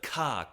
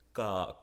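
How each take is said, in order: First: The consonant has a puff of air. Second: The consonant has no puff of air. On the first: The speaker calls it wrong. "instead of ka" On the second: The speaker calls it right. "you gotta go ga, Keep it unexploded"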